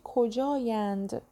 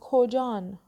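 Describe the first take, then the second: First: The word ends in a longer -ayand. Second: The word ends in a plain -an sound. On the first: This is the standard written form. "تو نوشتاری مینویسیم چی؟" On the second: This is the everyday spoken form. "ما تو محاوره میگیم کجان"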